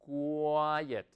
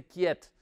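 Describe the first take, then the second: First: "quiet" in two syllables, "KWAI-et"; "quiet" as KWAI-et, w clearly sounded; correct pronunciation of quiet. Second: "quiet" as one syllable, "kyet"; mispronounced "quiet", kyet with no w; wrong pronunciation of quiet. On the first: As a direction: model "quiet" carefully with a drawn-out "kwai". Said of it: "se dice". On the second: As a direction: say "quiet" wrongly as "KYET", dropping the "wai" sound. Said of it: "no se dice quiet". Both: Shown as a demonstration.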